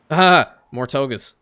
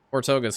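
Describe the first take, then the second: First: Exasperated groan. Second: Said in the usual way. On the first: Real, not acted. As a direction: groan out "Ah" before "more togas". More togas arrive.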